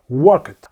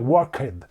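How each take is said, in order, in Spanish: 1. La terminación se pronuncia como un sonido corto de 't'. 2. La terminación se pronuncia como una sílaba 'ed' separada. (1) "lo más cercano es decir que suena como una T" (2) "lo lea casi así, pone un poco de acento"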